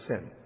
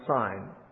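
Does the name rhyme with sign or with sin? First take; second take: sin; sign. First: The vowel is short, rhyming with sin. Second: The vowel is long, rhyming with sign. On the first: "It looks like we'd pronounce it sin" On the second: "it might be pronounced sign"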